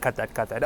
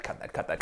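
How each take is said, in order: First: Quiet voiced "cut that, cut that", ending on a rise; a soft voiced "cut that" to the crew; softly voiced. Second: Whispered "cut that, cut that" under the breath; whispered "cut that" to the crew. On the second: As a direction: breathe the words with no voice. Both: Real, not acted. Telling crew to cut take.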